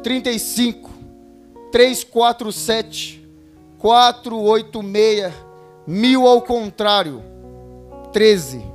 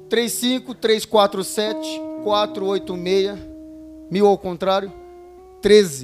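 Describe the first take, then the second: First: It is read slowly with pauses. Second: It is read quickly without pauses.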